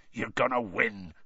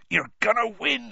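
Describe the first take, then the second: First: Gruff encouraging growl, barely shifted; growling Hagrid. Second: Higher, lifted and hopeful on win; eager gamekeeper insisting on victory; Hagrid cheering on. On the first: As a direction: rumble it out like a big gamekeeper. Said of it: "Hagrid growled". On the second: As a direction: push the belief up on "win". Hagrid reassures Harry. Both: Acted.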